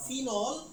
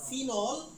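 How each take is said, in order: First: The word is said with an English pronunciation. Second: The word is said with an English pronunciation.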